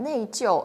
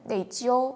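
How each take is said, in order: First: Both syllables have a falling fourth tone. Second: Falling first syllable, high level second syllable. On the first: This is the dictionary form. "사전에서는 네이지오 사성사성 이렇게 나오거든요" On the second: Many speakers say it this way in conversation. "회화에서는 네이지오 사성 일성으로 발음하는 중국인도 굉장히 많더라고요"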